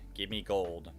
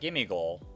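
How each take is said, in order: First: The words give and me are said separately. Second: Give and me are run together as gimme. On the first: The speaker calls it right. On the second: The speaker calls it wrong.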